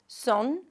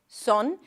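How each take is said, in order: The two takes are said the same way.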